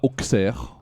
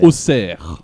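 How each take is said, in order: First: The x is pronounced as ks. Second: The x is pronounced as s. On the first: The speaker calls it wrong. "ça ne se prononce pas Auxerre" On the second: The speaker calls it right. "Mais Auxerre"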